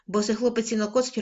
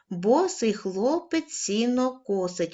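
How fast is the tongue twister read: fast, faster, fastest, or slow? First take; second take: fastest; fast. First: It is read at the quickest pace. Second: It is read at a moderate pace. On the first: "кожного разу будемо пришвидшувати темп" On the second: "кожного разу будемо пришвидшувати темп"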